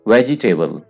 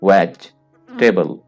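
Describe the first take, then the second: First: The word is said with four full syllables. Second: The word is said with three syllables, middle dropped. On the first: The speaker calls it wrong. "अक्सर लोग इसको pronounce करते हैं वेजिटेबल" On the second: The speaker calls it right. "आपने कहना है वेज टेबल"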